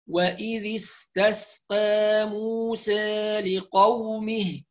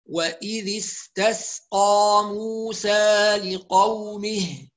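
First: The long a vowels lean slightly toward i. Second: The long a vowels are fully open. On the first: "الذي يقرأ بالتقليل" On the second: "اللي هيقرأ بالفتح لازم يحافظ على الفتح جيدا"

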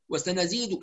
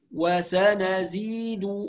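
First: The vowels are clipped short and rushed. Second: Every vowel is given its full length. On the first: The speaker calls it wrong. "يقرأ وسنزيد كده، وسنزيد هذا اختلاس" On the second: The speaker calls it right. "وسنزيد هكذا"

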